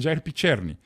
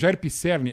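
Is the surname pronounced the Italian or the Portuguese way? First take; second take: Italian; Portuguese. First: The surname keeps its original Italian pronunciation. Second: The surname is adapted to Portuguese pronunciation. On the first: This is how the name is really said. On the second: This is how the name became known locally.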